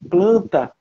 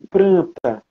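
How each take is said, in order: First: The word has an L sound after the p. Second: The word has an R sound after the p. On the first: "em vez de falar planta" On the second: "fala pranta"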